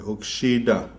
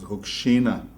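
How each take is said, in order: First: The word is said with a D sound. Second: The word is said with an N sound.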